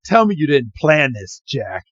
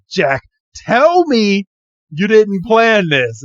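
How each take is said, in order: First: Said in the usual way. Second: Slow, higher, drawn-out accusing line; mock-dramatic disbelief; dramatic accusation. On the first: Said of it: "He's like". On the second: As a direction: drag it out like a betrayed friend. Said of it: "And he's like".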